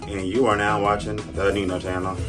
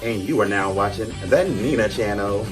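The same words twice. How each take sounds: First: It is said with low energy. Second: It is said with more energy.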